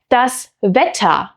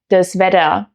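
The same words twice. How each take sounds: First: The t sound is hard and crisp. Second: The t sound is softened toward d. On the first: This is standard German. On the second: This is the Hessian dialect.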